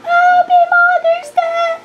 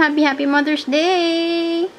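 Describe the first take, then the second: First: Squeaky high Mother's Day wish; high-pitched greeting. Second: Said in the usual way. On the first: Shown as a demonstration. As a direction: jump way up in pitch. Greeting repeated much higher. (mataas na boses na bati)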